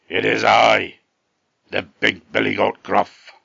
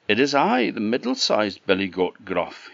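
First: Loud, gruff storybook goat; big gruff voice. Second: Middle goat voice. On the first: Big goat answering the troll, big gruff voice. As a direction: announce yourself loudly as a huge gruff goat. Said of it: "in a very big gruff voice". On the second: Middle goat answers the troll. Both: A narrator's reading.

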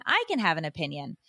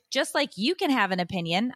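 First: "I" hit first, then falling lower; contrastive stress on I. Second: "you" picked out, phrase left rising; contrastive stress on YOU. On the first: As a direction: land the contrast on "I", dropping away. Answers "you can" with "I. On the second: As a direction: set up the contrast on "you", end open. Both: Real, not acted.

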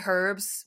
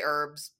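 First: "herbs" with the H clearly sounded; British "herbs" with H. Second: "herbs" said as "erbs"; American "herbs", silent H. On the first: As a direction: say "herbs" starting on a breathy H sound. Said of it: "you say, you say herbs". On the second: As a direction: drop the H at the start of "herbs". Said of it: "We're gonna say herbs just because". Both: Shown as a demonstration.

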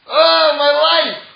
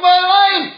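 First: Groaning complaint. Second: Happy exclamation. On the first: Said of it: "But the first time he's". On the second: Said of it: "And the second time". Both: Retold or imitated.

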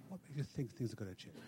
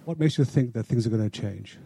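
First: Too quiet. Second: Much louder, clearly projected; raised voice repeating the question; repeated louder. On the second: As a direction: say it again so the speaker can hear. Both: Real, not acted. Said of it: "I couldn't hear what you were saying".

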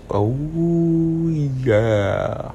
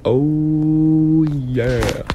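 First: Breathy crooned oh yeah; smooth oh yeah. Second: Drawn-out crooned oh yeah; smooth oh yeah. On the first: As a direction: ease it out like a lounge DJ. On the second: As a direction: slide into it lazily. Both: Shown as a demonstration. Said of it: "You know who else did that "oh, yeah" voice?".

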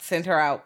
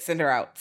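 First: "her" carries the weight, "Send" lighter; stress on her. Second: "send" punched, "her out" falling away; stress on send. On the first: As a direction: lean on "her" as if pointing her out. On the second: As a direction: hit "send" hard, then let it drop. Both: Retold or imitated. Retold elders sending her away.

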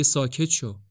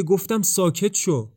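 First: Said in the usual way. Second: Higher, louder, slower command to be silent; sharp shout. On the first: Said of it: "لورا میگه". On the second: A narrator's reading. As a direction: snap at him to shut up at last. (فریاد تند و بلند)

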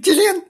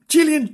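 First: Sudden high-pitched Gillian; squeaky Gillian. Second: Said in the usual way. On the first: Acted. Name repeated high.

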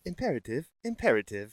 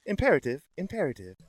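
First: Calm ship computer. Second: Faster, even computer voice; calm ship computer. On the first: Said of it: "My, my computer voice?". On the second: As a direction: read it like a ship's AI. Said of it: "That was pretty good". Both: Shown as a demonstration.

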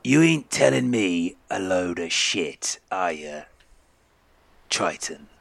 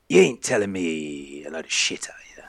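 First: Slow, deliberate, voiced threat; menacing captain. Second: Breathy, voiceless threat; menacing whisper. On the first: Captain repeating his threat to the triton, slow and menacing. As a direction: spell out the warning slowly. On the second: Acted. Captain with drawn sword to the triton, menacing whisper. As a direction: whisper it as a warning.

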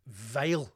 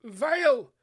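First: Said in the usual way. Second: Vile! thrown out high and loud; emphatic disgust on Vile. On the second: Acted. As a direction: exclaim "Vile!" louder and higher, disgusted.

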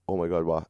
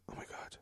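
First: Said in the usual way. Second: Imitated hushed gasp of horror; barely audible retold shock; shocked whisper. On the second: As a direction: whisper it under the breath, as if stunned. Psychic's shocked reaction, retold.

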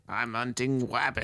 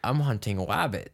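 First: Wabbits with a W for R; Elmer Fudd voice. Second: Hunting wabbit with a W; wabbit, R turned to W; Elmer Fudd voice. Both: Retold or imitated. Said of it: "pronounces his R, uh, R's as W's".

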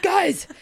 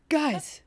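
First: Higher, stronger repeat of the call; second call, pushed up in pitch; urgent calling out. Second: First call for attention, pitched up; a high little appeal to the group. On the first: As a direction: pipe it up high and insistent. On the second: Calling out in his panicked thoughts. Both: Acted.

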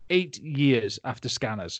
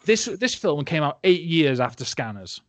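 First: "Eight years" slowed and weighted; emphatic repeat. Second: Said in the usual way. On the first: Real, not acted. Stressing how dated the effect was, slow weight on "Eight years". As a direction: spell out "Eight years after Scanners" slowly, word by word.

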